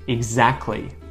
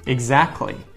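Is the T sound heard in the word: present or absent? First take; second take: absent; absent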